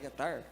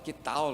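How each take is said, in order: First: The word ends with an R-like sound. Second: The word ends with an L-like sound. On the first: This is how it is said in the north. "Aqui no norte não é que tar?" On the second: This is how it is said in the south. "A gente fala lá para o sul"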